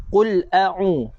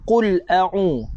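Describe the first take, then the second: No difference in how they are said.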